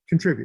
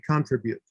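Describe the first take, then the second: First: It is said with a standard English accent. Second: It is said with an Indian English accent.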